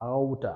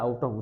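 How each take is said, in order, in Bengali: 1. এটা সংক্ষেপে 'outta'তে পরিণত হয়। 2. এটা পূর্ণভাবে 'out of' হিসেবে বলা হয়। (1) "উচ্চারণের ক্ষেত্রে সেটা হচ্ছে আউটা" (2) "তারা আউট অফ উচ্চারণ করে না"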